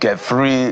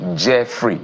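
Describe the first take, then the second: First: The name starts with a hard G sound. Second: The name starts with a J sound. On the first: The speaker calls it wrong. "Is it Geffrey?" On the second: The speaker calls it right. "it's pronounced like the J"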